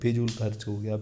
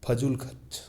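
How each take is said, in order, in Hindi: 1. पहला स्वर 'i' जैसा सुनाई देता है। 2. पहला स्वर 'a' जैसा सुनाई देता है। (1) "अपन यही गलत हर बार सभी यही बोलते हैं" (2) "नहीं"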